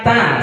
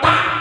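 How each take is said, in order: First: It is said firmly with a short, moderate vowel. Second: It is said very harshly with an abrupt cut-off. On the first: The speaker calls it right. "Baiknya yang ini dibaca ta" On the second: The speaker calls it wrong. "Galak banget sampai taknya ujungnya fathah jadi syiddah, jadi hamzah"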